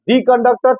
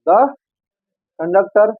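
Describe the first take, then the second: First: The word 'the' has a long 'ee' vowel. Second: The word 'the' has a short 'uh' vowel. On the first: "दी भी सही है" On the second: "द भी सही है"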